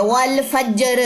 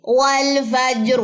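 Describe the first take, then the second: First: والفجر said quickly with a thin ra and a rising end; demonstrating the mistake in والفجر; wrong thin ra; wrong light ra. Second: والفجر slow and drawn out, ra thick at the stop; correct heavy ra. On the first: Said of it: "کچھ لوگ اس کو ایسے پڑھتے ہیں". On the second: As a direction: recite والفجر properly with a heavy ra. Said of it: "فجر نہیں ہے یہ". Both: Shown as a demonstration.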